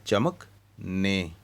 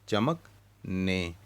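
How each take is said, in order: Both takes have the same delivery.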